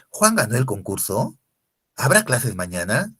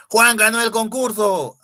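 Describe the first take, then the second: First: "¿Juan ganó el concurso? ¿Habrá clases mañana?" asked loudly with rising ends; questioning intonation. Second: High, loud cry of joy; excited exclamation. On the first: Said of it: "oraciones interrogativas". ("concurso" y "mañana" con entonación interrogativa ascendente) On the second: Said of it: "Ah, emoción". (exclamación emocionada, aguda y fuerte) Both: Shown as a demonstration.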